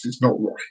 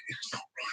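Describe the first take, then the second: First: Said in the usual way. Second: Whispered, voiceless repeat; whispered echo of the line. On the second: Shown as a demonstration. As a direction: breathe it as a hushed aside.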